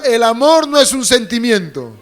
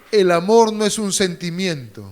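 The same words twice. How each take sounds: First: Raised-voice call to repeat; out loud. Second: Said in the usual way. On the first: Shown as a demonstration. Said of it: "Voz alta, diga". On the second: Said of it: "Voz alta".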